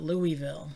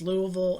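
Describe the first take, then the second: First: The name is said the way outsiders say it. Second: The name is said the way locals say it. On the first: The speaker calls it wrong. "and not Louisville" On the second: The speaker calls it right. "those of you who are from the area, you know that it's Louisville"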